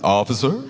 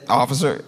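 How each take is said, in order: First: It is said warmly, like welcoming someone home. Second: It is said plainly, as a neutral greeting.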